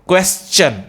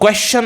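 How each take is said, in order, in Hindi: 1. अंत की ध्वनि 'chun' जैसी है। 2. अंत की ध्वनि 'shun' जैसी है। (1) "this is the right प्रोनाउंसिएशन" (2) "क्वेश्चन आपका गलत है"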